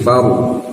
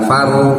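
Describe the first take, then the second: First: The r sound is heavy and thick. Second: The r sound is light and thin. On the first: The speaker calls it right. "maka harus ditebalkan ro-nya ya" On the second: The speaker calls it wrong. "Bukan faru"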